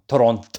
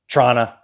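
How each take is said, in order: First: The word is said in full, three clear syllables. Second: The word is clipped very short, like 'Trana'. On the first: "Not Toronto" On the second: "or Trana"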